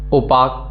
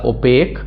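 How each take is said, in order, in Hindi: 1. आखिरी अक्षर में खुला 'ah' स्वर है। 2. आखिरी अक्षर में 'ay' स्वर है। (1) "ओपाक वे नहीं पढ़ना है इसको" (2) "इसको पढ़िएगा ओपेक"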